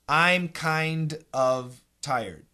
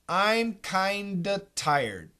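First: Both words are fully pronounced, with the V sound. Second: The V is dropped, giving kinda with a D.

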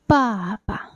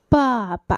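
First: The initial b is released with a puff of air. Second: The same.

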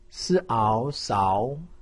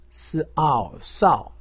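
First: The pitch rises from mid to high. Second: The pitch falls sharply from high. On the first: "二声" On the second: "四声"

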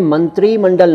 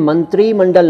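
First: The vowel after 'tr' is long. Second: The same.

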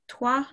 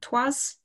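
First: The word ends without an s sound. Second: The word ends with an s sound. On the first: The speaker calls it right. "you don't pronounce the S on that one" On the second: The speaker calls it wrong. "not trois"

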